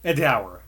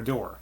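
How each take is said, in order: First: The word ends with an 'ower' sound, like power. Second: The word ends with an 'ore' sound, like more. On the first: This is how it might have been said back then. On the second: This is how it is said today.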